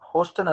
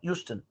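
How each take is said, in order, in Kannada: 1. ಇದು h ಶಬ್ದ ಮತ್ತು 'ho' ಇಂದ ಶುರುವಾಗುತ್ತದೆ. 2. ಇದು y ಶಬ್ದ ಮತ್ತು 'yoo' ಇಂದ ಶುರುವಾಗುತ್ತದೆ. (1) "ಹೋಸ್ಟನ್ ಅಲ್ಲ" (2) "ಇದ್ರ ಉಚ್ಚಾರಣೆ ಯೂಸ್ಟನ್ ಅಂತ"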